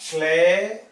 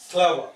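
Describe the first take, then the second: First: "Clever" stretched loud into two beats; split into syllables. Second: Said in the usual way. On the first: Shown as a demonstration. Teacher counting two syllables, "Clever" pulled apart. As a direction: draw out "Clever" as cle, ver. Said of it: "Two syllable". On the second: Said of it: "How many syllable?".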